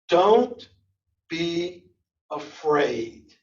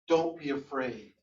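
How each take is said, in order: First: It is said with exaggerated, lively vocal variety. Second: It is said plainly, without much vocal variety. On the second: "you said"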